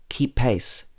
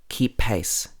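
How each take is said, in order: The two takes are said the same way.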